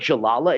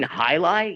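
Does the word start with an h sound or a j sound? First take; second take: j sound; h sound. First: It starts with a hard j sound. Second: It starts with an h sound. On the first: The speaker calls it wrong. "they didn't even know how to pronounce it" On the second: The speaker calls it right. "you mean highlight?"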